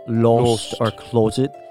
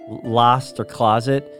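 First: It is said with British vowels. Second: It is said with American vowels. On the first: "they're like lost or closet" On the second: "instead of we say lost or closet"

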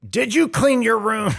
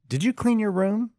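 First: It is asked in a harsh, accusing tone. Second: It is asked in a plain, neutral tone.

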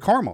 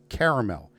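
First: The word is said with two syllables. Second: The word is said with three syllables. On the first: The speaker calls it wrong. "If it wanted to be pronounced caramel, it'd be spelt C-A-R-M-E-L" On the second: The speaker calls it right. "You put an extra A and it's caramel"

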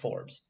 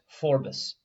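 First: The name is said in its current everyday form. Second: The name is said in its original older form. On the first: This is how the name is pronounced now. "It's just Forbes" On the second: This is how the name was once pronounced. "originally pronounced Forbes"

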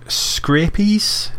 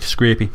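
First: The word ends with an s sound. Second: The word ends without an s sound. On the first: The speaker calls it wrong. "I'm not sure if I'm pronouncing that right" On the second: The speaker calls it right. "I've got it without the S"

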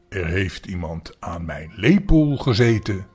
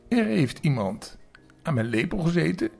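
First: The voice is big and very deep. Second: The voice is small and high. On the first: The largest character is speaking. "met grote, zware stem" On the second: The smallest character is speaking. "met een klein stemmetje"

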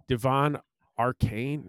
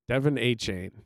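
First: The surname sounds like 'ar-cane'. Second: The surname sounds like 'a-chain'. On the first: The speaker calls it wrong. "No, it's not Arcane, though" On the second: The speaker calls it right. "That's how he'd pronounce it"

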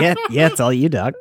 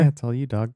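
First: It is said in a put-on Carl voice. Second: It is said in his natural voice.

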